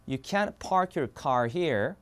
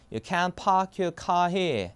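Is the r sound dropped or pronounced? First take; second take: pronounced; dropped. First: The r sounds are pronounced, American style. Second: The r sounds are dropped, British style. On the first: "미국 영어로 이렇게 됩니다" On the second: "알버름 다 빠지는 거야"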